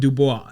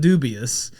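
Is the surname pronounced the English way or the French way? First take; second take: French; English. First: The surname is pronounced the French way. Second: The surname is pronounced the English way. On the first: "if you want to take it French like that" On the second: "It has the English and the French"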